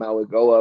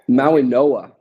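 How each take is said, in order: First: The middle consonant is a G sound. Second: The middle consonant is an N sound. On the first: The speaker calls it wrong. "I've been saying Maui Goa myself all off season, obviously incorrectly now" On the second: The speaker calls it right. "It's pronounced with like an N"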